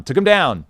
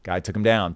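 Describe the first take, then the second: First: Louder, higher punch on the takedown; emphatic repeat. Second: Said in the usual way. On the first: Real, not acted. Host retelling a surfer's takedown, emphatic. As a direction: hammer it home.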